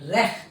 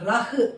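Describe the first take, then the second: First: The first vowel is an 'e'-like sound. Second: The first vowel is an open 'a' sound. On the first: The speaker calls it right. "Pronounce பண்ணணும்" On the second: The speaker calls it wrong. "Pronounce பண்ணக்கூடாது"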